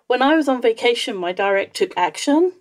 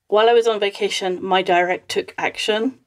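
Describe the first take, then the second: First: The voice sounds happy and smiling. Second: The voice sounds unhappy and not smiling. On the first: The news that follows will be good. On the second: The news that follows will be bad.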